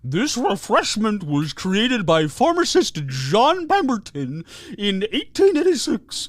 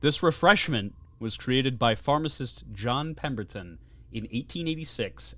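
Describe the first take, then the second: First: It is read in a put-on voice. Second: It is read in a normal voice.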